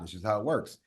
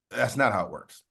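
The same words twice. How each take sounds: First: Said in the usual way. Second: "not" landed firm with a falling end; "not" pressed down and final; stress on not. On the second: Shown as a demonstration. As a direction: lean into "not" to correct the idea.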